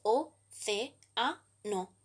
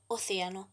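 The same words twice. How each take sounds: First: "o, ce, a, no" with a pause after each syllable. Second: Said in the usual way. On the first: Shown as a demonstration. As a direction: spell out "o, ce, a, no" as four separate beats. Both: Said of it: "la división en sílabas es".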